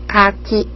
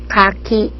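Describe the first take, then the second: Both takes have the same delivery.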